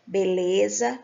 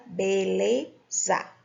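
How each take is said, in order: First: Said in the usual way. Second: "beleza" slowly divided as be - le - za; split into syllables. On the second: Shown as a demonstration. Teacher showing three syllables, "beleza" slowly split. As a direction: spell out "beleza" syllable by syllable, with a pause before the last. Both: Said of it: "três sílabas".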